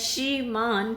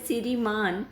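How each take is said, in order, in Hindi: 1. शब्द मानक रूप में बोला गया है। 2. शब्द दोषपूर्ण ध्वनि के साथ बोला गया है। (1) "श्रीमान की जगह" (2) "उच्चारण से संबंधित दोष"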